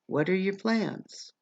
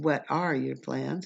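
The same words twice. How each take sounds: First: The words are squished together and reduced. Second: Each word is said fully and separately. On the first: "I'll just say what are" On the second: "Rather than what are your plans"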